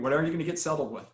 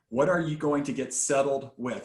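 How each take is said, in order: First: It is said at a fast pace. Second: It is said at a slower pace.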